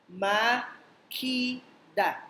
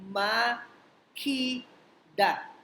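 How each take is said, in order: The two takes are said the same way.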